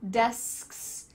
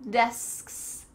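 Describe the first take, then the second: Both takes have the same delivery.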